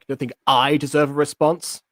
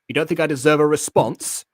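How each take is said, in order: First: The pronoun I is stressed. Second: The pronoun I is not stressed.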